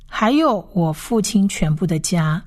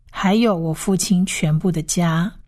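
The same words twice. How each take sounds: The two takes are said the same way.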